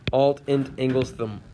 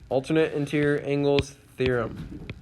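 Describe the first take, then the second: First: Most words are clipped to short syllables. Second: Every word is said in full. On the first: The speaker calls it wrong. "we don't say them that way. I'm just being funny" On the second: The speaker calls it right. "we actually say them out, like full out"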